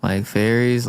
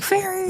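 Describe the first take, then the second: First: Said in the usual way. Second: Very high-pitched fairy squeal; campy fairy. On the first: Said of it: "or, like, fairies?". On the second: Shown as a demonstration. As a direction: say "fairies" very high, in falsetto. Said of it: "that's the wrong kind of fairy".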